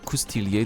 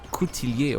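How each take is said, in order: First: It uses the old French pronunciation. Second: It uses the modern French pronunciation. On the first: "with the new or old French pronunciation" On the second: "with the new or old French pronunciation"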